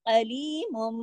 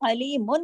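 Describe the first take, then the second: First: The word ends with an m sound. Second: The word ends with an n sound. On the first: The speaker calls it right. "मोम हो जाएगा" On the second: The speaker calls it wrong. "इसको अलीमुन नहीं पढ़ेंगे"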